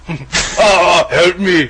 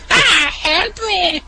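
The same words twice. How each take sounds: First: Higher strained grunting cry for help; louder strained mock grunt; grunt impression. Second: Much higher, slow, laughing mock grunt; high slow laughing repeat; laughing grunt impression. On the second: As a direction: try the grunt again through laughter. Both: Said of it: "grunt impression".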